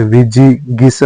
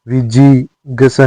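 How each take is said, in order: First: विजिगीषा with a clear gee; correct vowel. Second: विजिगीषा said as "viji-gasa"; wrong vowel. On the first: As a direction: say विजिगीषा as "vijigeesha". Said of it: "होता है". (विजिगीषा में स्पष्ट गी) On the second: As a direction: lose the ee after g in विजिगीषा. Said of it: "नहीं होता है". (विजिगीषा में गी को ग) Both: Shown as a demonstration.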